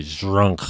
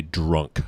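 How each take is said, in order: First: Put-on "drunk" slurred into a mushy "zhrunk"; drunk slurring. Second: Said in the usual way. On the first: Shown as a demonstration. Showing how drunks fail the word, slurred "drunk". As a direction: smear the start of "drunk" like a drunkard. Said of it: "people who are drunk cannot pronounce". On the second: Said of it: "See how clearly you can say it".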